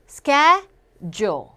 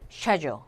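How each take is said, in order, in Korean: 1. 이 단어는 sk 소리로 시작해요. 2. 이 단어는 sh 소리로 시작해요. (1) "미국 영어에서 스, ca, ch를 거의 k 발음하죠" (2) "영국 영어에서는 ... 쉐가 돼요"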